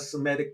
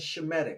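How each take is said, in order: First: The word begins with an 's' sound. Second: The word begins with a 'sh' sound. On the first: The speaker calls it wrong. "I'm not saying Semitic" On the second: The speaker calls it right. "Notice I'm saying Shemitic"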